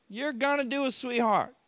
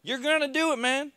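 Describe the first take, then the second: First: High, loud coaxing yell leaning on gonna; yelling back. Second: Much higher, loud encouraging yell; yelling back. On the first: Nurse shouting encouragement while standing him up, high and loud. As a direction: urge him on, stressing gonna. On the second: Staff shouting encouragement at the struggling patient, high and loud. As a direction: push him on, shouting. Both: Retold or imitated. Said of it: "they yell back at me".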